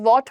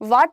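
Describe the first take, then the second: First: The vowel is a rounded 'aw'. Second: The vowel is an open, unrounded 'ah'. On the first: The speaker calls it right. "वॉट होता है" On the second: The speaker calls it wrong. "वाट नहीं होता है"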